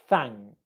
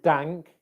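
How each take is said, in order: First: The word begins with a soft th sound. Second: The word begins with a d sound. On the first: The speaker calls it right. "your tongue coming through your teeth... It's thank" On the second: The speaker calls it wrong. "we don't want dank"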